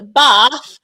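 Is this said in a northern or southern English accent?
southern. It is said in a southern English accent. "Bath for us Southerners"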